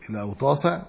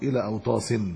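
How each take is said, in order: First: The word ends in a short a, without nunation. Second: The word ends in -in, with nunation. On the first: The name is treated as indeclinable. "ممنوع من الصرف على وجه" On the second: The name is treated as declinable. "وعلى وجه آخر في العربية مصروف"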